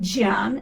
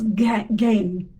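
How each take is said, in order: First: The word starts with a soft G sound. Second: The word starts with a hard G sound. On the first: The speaker calls it wrong. "It's not Gian" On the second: The speaker calls it right. "G E N is a hard sound"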